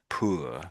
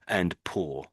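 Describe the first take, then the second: First: The vowel is long and drawn out. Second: The vowel is short, not drawn out. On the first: "very stretched out middle way" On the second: "the way that I'm suggesting to say it"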